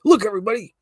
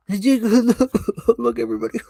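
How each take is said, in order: First: Loud, high call to the crowd; cried out. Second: High drawn-out call; cried out. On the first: Acted. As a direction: shout to get everyone looking. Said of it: "She cried". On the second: Shown as a demonstration. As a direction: really cry it out this time. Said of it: "Oh, she cried?".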